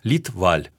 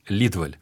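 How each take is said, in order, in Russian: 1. Ударение на обоих слогах, с придыханием. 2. Ударение падает только на первый слог. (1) "Шведы произносят фамилию фактически с двумя ударениями, с придыханиями" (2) "Но он привык к немецкому ударению... ударение на первый слог"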